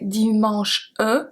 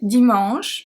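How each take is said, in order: First: The final e is sounded after the word. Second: The final e is silent at the end. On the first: The speaker calls it wrong. "We don't say dimanche E" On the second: The speaker calls it right. "We say dimanche"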